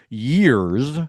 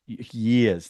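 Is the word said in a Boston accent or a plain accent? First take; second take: plain; Boston. First: The word is said in a plain accent. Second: The word is said in a Boston accent.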